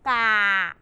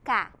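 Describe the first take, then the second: First: It is said with the mouth wide, no air escaping. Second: It is said with a smaller mouth and escaping air. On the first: The speaker calls it wrong. "Kalau terlalu besar ... Tidak boleh ya" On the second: The speaker calls it right. "Yang benar ka, ka, ka. ... dia akan ada anginnya"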